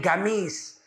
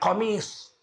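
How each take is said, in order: First: The word begins with a hard g sound. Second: The word begins with a deep q sound. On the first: This is the Yemeni way of saying it. "Orang Yaman menyebutnya gamis" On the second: This is the Quraysh way of saying it. "Orang Quraisy menyebutnya qamis"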